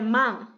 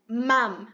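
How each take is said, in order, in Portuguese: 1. A palavra termina em uma nasal com a língua parada. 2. A palavra termina com os lábios fechados, como mom em inglês. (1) "não é man e não é mam. É mam ... com a língua parada" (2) "se falar mam, até parece mom de, no inglês"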